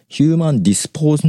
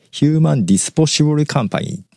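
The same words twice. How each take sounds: First: "ヒューマンディスポーズ" breaking off mid-word; failed attempt at "ヒューマンディスポーズ", cut off after ポーズ; tongue-tied stumble. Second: Said in the usual way. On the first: Real, not acted. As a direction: trip over "ディスポーズ" and stop short. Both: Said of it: "言えない".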